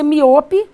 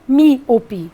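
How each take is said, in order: First: The stress is not on the first syllable. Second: The stress is on the first syllable. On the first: The speaker calls it wrong. "Você não pronuncia miope" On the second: The speaker calls it right. "a força está na antepenúltima"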